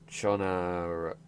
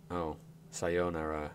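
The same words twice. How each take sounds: First: Chonara sounded out slowly as cho-na-ra; slow wrong reading Chonara; slow misreading. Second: Sayonara read slowly as sa-yo-na-ra; slow correct sayonara. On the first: Streamer sounding out hiragana, slow wrong reading. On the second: Streamer realising the word, slow correct reading. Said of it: "He said sayonara". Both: Shown as a demonstration.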